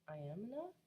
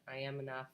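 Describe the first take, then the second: First: It sounds tentatively hopeful and questioning. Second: It sounds unconvinced and disbelieving.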